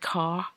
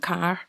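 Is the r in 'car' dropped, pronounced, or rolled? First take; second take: dropped; rolled. First: The final r is not pronounced. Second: The final r is sharply rolled. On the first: This is how someone from the south of England says it. "he can't pronounce the letter R" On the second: This is how it is said in parts of Scotland. "even sharper versions of that depending on where you're from. Car, in some parts of Scotland"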